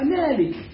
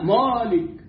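First: The sounds are light and thin throughout. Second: The sounds are heavy and emphatic. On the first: The speaker calls it right. "مرققة، وبعدها ألف مرققة واللام مرققة والكاف مرققة" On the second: The speaker calls it wrong. "لماذا فخمتها؟ لأن ما فيها تفخيم أصلا"

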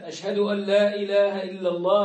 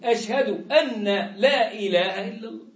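First: The n merges fully into the following l. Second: The n is pronounced separately before the l. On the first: The speaker calls it right. "يجب أن ننطق بكلمة التوحيد نطقا صحيحا" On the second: The speaker calls it wrong. "فلا يدغمها مع أنها حكمها الإدغام الكامل"

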